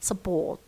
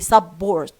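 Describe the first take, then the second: First: The first syllable has a reduced schwa vowel. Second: The first syllable has a full vowel. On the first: The speaker calls it right. "You say support" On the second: The speaker calls it wrong. "Don't say support"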